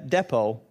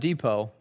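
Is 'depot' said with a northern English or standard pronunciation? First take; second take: northern English; standard. First: It has a northern English pronunciation. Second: It has a standard, non-northern pronunciation. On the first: The speaker calls it wrong. "I was saying depot rather than depot. ... It's a north of England thing" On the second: The speaker calls it right. "rather than depot"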